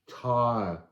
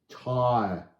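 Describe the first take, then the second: The two takes are said the same way.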